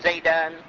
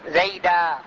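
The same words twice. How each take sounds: First: The word ends in a short a plus n. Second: The word ends in a long a vowel. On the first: This is the form used inside continuous speech. The speaker calls it wrong. "لا تقول زيدا" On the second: This is the pausal form used when stopping. The speaker calls it right. "تقول رأيت زيدا"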